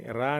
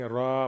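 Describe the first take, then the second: First: "रा" with a thin, light r and open front aa. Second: "रा" full-mouthed, with a dark rounded vowel; full heavy रा. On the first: Teacher showing the reading to avoid, thin flat-tongued "रा". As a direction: keep "रा" light, not full-mouthed. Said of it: "रा नहीं पढ़ेंगे". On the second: Teacher showing ra with zabar read full, heavy rounded "रा". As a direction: make "रा" heavy, leaning towards raw. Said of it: "उसको पुर पढ़ेंगे". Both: Shown as a demonstration.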